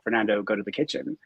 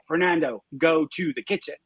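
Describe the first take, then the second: First: It is said calmly and quietly. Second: It is said very loudly and bossily.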